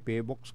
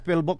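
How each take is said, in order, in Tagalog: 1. Hindi sinasambit ang tunog ng L. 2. Malinaw na binibigkas ang tunog ng L. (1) "dati Pbox ka ko eh" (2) "Philbox sabi niya"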